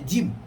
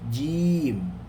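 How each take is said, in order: First: The vowel is cut short. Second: The vowel is drawn out long. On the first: The speaker calls it wrong. "jangan baca jim" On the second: The speaker calls it right. "Panjangkan kerana ada ya di situ"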